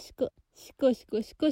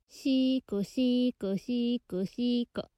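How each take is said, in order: First: The phrase is said quickly with short syllables. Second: The phrase is said slowly with drawn-out syllables.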